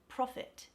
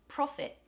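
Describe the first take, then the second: First: The final T is hard and fully released. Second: The final T is soft, not fully released.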